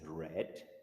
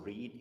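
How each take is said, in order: First: It is pronounced as the past tense form. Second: It is pronounced as the present tense form. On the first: It refers to the past. "the past for read is read" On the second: It refers to the present. "the past for read"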